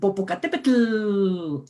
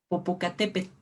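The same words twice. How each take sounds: First: The final L is strong and voiced. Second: The final L is soft and voiceless. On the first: The speaker calls it wrong. "siempre marcamos tú" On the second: The speaker calls it right. "la L no se pronuncia, no es tan sonora"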